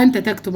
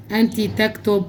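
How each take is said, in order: First: أنت تكتب said clearly as "enta tektub", with the full vowel on أنت; carefully corrects to أنت تكتب, the أنت given its full vowel; corrected reading. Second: أنت تكتب said quickly as "ent itektub", with the أنت clipped short; stumbling over أنت تكتب, the أنت swallowed into the verb; slip of the tongue. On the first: Teacher corrects the misread أنت تكتب for students. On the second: Teacher reading the exercise aloud, slips on أنت تكتب. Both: Real, not acted. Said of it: "عفوًا".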